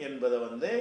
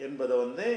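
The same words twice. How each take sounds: The two takes are said the same way.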